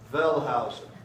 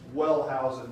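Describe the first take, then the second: First: The name begins with a V sound. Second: The name begins with a W sound. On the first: This is the original German way. The speaker calls it right. "it's properly pronounced Wellhausen" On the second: This is how it is said in America. The speaker calls it wrong. "we would say Wellhausen here in America"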